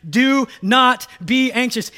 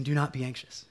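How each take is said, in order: First: Loud, high, slow command with every word punched in DO NOT BE ANXIOUS; emphatic. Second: Gentle, low-key reassurance; not angry. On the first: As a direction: hammer out DO NOT BE ANXIOUS, raised and forceful. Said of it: "He is emphatic here". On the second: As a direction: say it calmly, as comfort rather than command. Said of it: "but he's not angry". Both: Acted.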